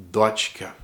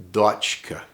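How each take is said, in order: Both takes have the same delivery.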